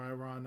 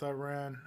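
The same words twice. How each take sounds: First: "Iran" said eye-RON, rhyming with "gone". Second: "Iran" said eye-RAN, rhyming with "man"; short-a vowel ending "Iran", as in "ran". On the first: Co-host correcting himself on the country, "Iran" as eye-RON. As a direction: open "ah" vowel ending "Iran". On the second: Co-host unsure how to say the country, "Iran" as eye-RAN. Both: Real, not acted. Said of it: "I don't know if I'm pronouncing it".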